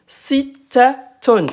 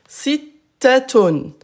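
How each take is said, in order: The two takes are said the same way.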